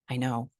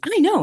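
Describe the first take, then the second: First: It is said softly and calmly. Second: It is said loudly and assertively. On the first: A calm inner certainty that needs no proof. The speaker calls it right. "that quiet" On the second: Trying to prove oneself to others. The speaker calls it wrong. "It's not the person that's like"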